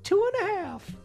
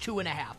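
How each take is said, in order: First: It is said in a high-pitched voice. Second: It is said in a normal pitch.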